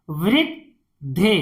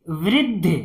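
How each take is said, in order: First: "वृद्धि" as "vrid", pause, "dhi"; syllable by syllable. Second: Said in the usual way. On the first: Shown as a demonstration. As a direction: split "वृद्धि" in two. Teacher sounds out, then blends. ("वृद्धि" को तोड़कर पढ़ना)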